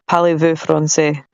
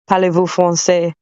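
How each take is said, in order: First: It is spoken with a Scottish accent. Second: It is spoken with a French accent. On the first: "in Scottish" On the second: "in a French accent"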